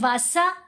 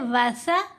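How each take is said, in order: First: The consonant is a hissing 's' sound. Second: The consonant is a soft 'th' sound. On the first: The speaker calls it wrong. "तो वो सीन की आवाज़ है" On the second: The speaker calls it right. "जुबान दांतों के दरमियान में रखें तो आवाज़ नर्म सी पैदा होगी"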